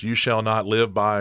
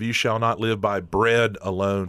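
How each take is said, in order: First: "you shall not live by" then a held pause; pause after "by". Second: Said in the usual way. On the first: Shown as a demonstration. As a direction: stop dead after "by" and leave the line hanging. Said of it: "and there's a pause". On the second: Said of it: "so instead of".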